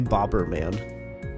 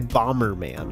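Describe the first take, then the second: First: The first part sounds like 'bobber'. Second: The first part sounds like 'bomber'. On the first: This is the speaker's own way of saying it. "I say Bobberman. He's the Bobberman. He's the bobber. A fishing bobber" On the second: This is how most people say it. "people say Bomberman. Like bomber"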